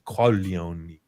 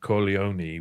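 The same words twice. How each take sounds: First: It is pronounced unlike a word for testicles. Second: It is pronounced like a word for testicles. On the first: It is just the family name. The speaker calls it right. "we we should be saying Corleone" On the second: It accidentally means testicles. The speaker calls it wrong. "we're saying balls like testicles"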